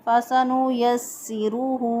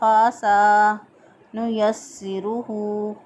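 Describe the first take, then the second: First: The opening letters keep their normal length. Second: The opening letters are stretched long. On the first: The speaker calls it right. "दुरुस्त अदायगी" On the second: The speaker calls it wrong. "शुरू वाले हरूफ जो हैं उन पे लंबा करते हैं"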